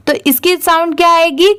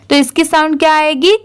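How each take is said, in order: Both takes have the same delivery.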